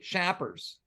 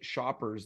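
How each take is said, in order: First: The word sounds like 'shappers' with a French-Quebec accent. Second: The word has a plain English 'shop' vowel. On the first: "They say it like it's S C H A P P E R S" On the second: "They don't say shoppers"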